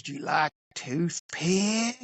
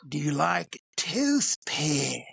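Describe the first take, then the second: First: Slow, odd trucker voice with rising ask; drawn-out creepy stranger asking; a stranger at the pump, slowly and oddly offering. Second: Slower, falling creepy repeat; creepy trucker repeating. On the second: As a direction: repeat it slowly, flatly insistent. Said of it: "the guy goes again". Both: Retold or imitated.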